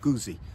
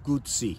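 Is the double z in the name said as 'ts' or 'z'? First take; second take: z; ts. First: The double z sounds like a plain 'z'. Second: The double z sounds like 'ts', as in pizza. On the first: The speaker calls it wrong. "not Guzzi" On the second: The speaker calls it right. "it is pronounced Guzzi"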